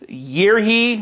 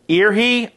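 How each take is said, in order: First: The first word begins with a y sound. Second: The first word begins with a vowel sound. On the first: "I guess it's year he" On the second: "or ear he"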